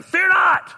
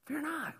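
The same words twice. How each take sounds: First: High, loud, stern shouted command; booming almighty scolding at full volume; God. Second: Very soft, higher reassurance; hushed, tender comfort. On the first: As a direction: thunder it as a stern order. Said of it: "I read it in my God voice". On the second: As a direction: offer it gently as an invitation. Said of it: "He's telling us tenderly". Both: Acted.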